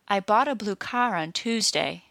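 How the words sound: Car is stressed and blue is said quickly. "when I stressed car but not blue, the word blue was said very quickly"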